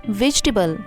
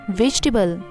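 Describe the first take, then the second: No difference in how they are said.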